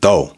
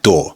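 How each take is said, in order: First: The final R sound is dropped. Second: The final R sound is pronounced. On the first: "that can become do" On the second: "take a word like door"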